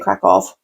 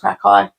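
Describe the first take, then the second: First: The name ends with an 'off' sound. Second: The name ends without an 'off' sound. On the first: This is the speaker's own habitual way. "but I say crack off" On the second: This is the corrected way someone else says it. "Michael always corrects me and says Krakow"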